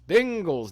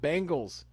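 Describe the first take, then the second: First: The first syllable sounds like Ben. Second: The first syllable sounds like bang. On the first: It names the football team. The speaker calls it right. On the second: It names an eighties pop group. The speaker calls it wrong.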